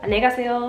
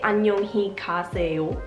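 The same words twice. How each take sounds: First: The sounds are reduced and run together casually. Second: Every sound is pronounced fully and carefully. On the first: The speaker calls it right. "They say" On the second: The speaker calls it wrong. "They don't say"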